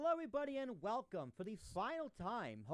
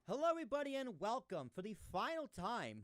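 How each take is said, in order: First: The voice sounds dull and muffled. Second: The voice sounds clear and natural. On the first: The speaker calls it wrong. "So that sounds really muffled" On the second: The speaker calls it right. "So that's about right"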